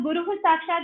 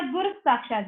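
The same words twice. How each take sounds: First: गुरु ending in a breathed h before साक्षात; either accepted form. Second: गुरु ending in s, run into साक्षात; alternative sandhi form. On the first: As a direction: say "guruḥ" for गुरु, then साक्षात. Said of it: "या तो गुरु साक्षात बोलिए या". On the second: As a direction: join गुरु to साक्षात as "gurus-sākṣāt". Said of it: "या गुरु साक्षात बोलिए". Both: Shown as a demonstration.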